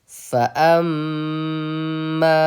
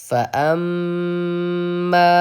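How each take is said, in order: Both takes have the same delivery.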